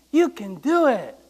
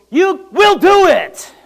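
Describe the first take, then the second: First: Said in the usual way. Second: "will" pressed slow, higher and louder; stress on will. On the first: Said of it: "After he goes". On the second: Retold or imitated. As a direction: lean hard on "will", slowly. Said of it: "and she goes".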